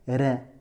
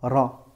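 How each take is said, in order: First: The vowel is thin and fronted, like 'é'. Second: The vowel is a full, open, resonant 'a'. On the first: The speaker calls it wrong. "On n'a pas dit Ré" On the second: The speaker calls it right. "on l'a prononcée euh, pleine, comme un A"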